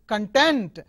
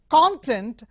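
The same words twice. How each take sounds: First: The stress is on the second syllable. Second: The stress is on the first syllable. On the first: It is an adjective or verb meaning satisfied. "if you change the stress to the second syllable, it becomes adjective or verb" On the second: It is a noun meaning the contained material. "it is noun"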